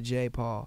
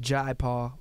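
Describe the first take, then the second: First: The first name sounds like the letter J. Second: The first name rhymes with 'eye'. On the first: This is how the artist himself says it. "I think he pronounces it" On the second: This is the culturally proper pronunciation. "his name is properly pronounced"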